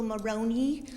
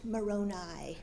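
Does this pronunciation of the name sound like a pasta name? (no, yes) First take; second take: yes; no. First: The name is pronounced like an Italian pasta name. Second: The name is pronounced unlike an Italian pasta name. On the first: The speaker calls it wrong. "you're still pronouncing it wrong. It's Moroni. He's not a top of pasta" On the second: The speaker calls it right. "I correct him. It's pronounced Moroni"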